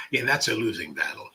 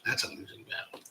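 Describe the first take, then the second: First: Said in the usual way. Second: A hushed, resigned whisper; whispered aside. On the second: Real, not acted. Host whispering a rueful aside to chat. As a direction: whisper it to yourself. Repeats remark, then whispers it.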